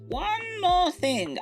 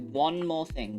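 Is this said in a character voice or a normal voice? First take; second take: character voice; normal voice. First: It is said in a put-on character voice. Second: It is said in the speaker's normal voice.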